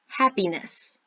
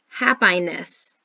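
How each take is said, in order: First: The vowel sounds are normal. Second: The vowel sounds are distorted. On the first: The speaker calls it right. "you say it correctly" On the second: The speaker calls it wrong. "I say a word incorrectly because I'm messing up the sounds"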